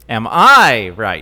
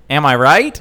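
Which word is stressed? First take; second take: I; am. First: The stress is on "I". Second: The stress is on "am".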